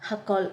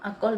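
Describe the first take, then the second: First: It starts with a harsh h from the throat. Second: It starts directly with a vowel, no h. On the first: This is how local native speakers say it. "ഹ ഇങ്ങനെ തൊണ്ടയിൽ എടുത്ത് അങ്ങനെ ഇവിടുത്തെ ഇവിടുത്തെ മനുഷ്യർ സംസാരിക്കുമ്പോൾ" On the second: This is how Malayalis say it. "നമ്മൾ മലയാളികളൊക്കെ പറയുമ്പോൾ"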